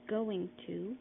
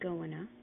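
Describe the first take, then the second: First: The two words are said separately. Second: The two words run together into one.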